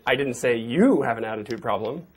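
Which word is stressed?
you. The stress is on the word you.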